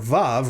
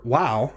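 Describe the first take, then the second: First: The name begins with a V sound. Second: The name begins with a W sound. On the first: This is the modern pronunciation used today. "moderns pronounce this letter as Vav, uh, or as a V in vine" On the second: This is the older pronunciation kept by some holdouts. "pronouncing it as a W, as in wow"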